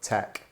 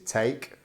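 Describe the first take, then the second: First: The vowel is a short 'e' sound. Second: The vowel is a long 'ay' sound.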